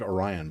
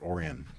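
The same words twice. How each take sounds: First: It is said as the spelling suggests. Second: It is said the way locals say it. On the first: "It looks like Orion" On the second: "but they pronounce it Orion"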